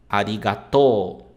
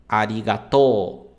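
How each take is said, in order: The two takes are said the same way.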